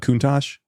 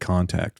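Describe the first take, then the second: First: The name is said like 'Countach'. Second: The name is said like the word 'contact'. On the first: The speaker calls it right. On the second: The speaker calls it wrong.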